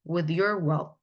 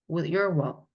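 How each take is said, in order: The two takes are said the same way.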